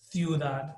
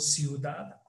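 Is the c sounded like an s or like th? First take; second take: th; s. First: The c is said like English th. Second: The c is said like an s. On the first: This is the pronunciation used in Spain. "pero en España no" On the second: This is the pronunciation used in Latin America. "los T's y Z's pronuncian como S"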